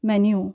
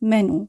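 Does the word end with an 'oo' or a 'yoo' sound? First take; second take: yoo; oo. First: The word ends with a 'yoo' sound. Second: The word ends with a plain 'oo' sound. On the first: This is the English pronunciation. "আর ইংলিশে উচ্চারণ করব আমরা মেনিউ" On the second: This is the Italian pronunciation. "ইটালিয়ানে আমরা উচ্চারণ করছি মেনু"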